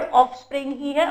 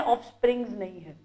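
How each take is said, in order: First: "ऑफस्प्रिंग" with no s after ng; correct bare ending. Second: "ऑफस्प्रिंग्स" low and soft, with final s; rejected s ending. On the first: Teacher reminding students of the word, "ऑफस्प्रिंग" without s. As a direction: end "ऑफस्प्रिंग" cleanly on ng. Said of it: "मैंने आपको क्या बताया". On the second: Teacher dismissing the wrong word, low soft "ऑफस्प्रिंग्स" with s. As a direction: drop down on "ऑफस्प्रिंग्स", keeping the s. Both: Shown as a demonstration.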